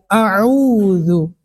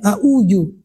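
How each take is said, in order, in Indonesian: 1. Huruf tengahnya bunyi 'dh'. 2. Huruf tengahnya bunyi 'j'. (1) "Tapi a'udzu" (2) "A'uju itu bukan kalimat perlindungan"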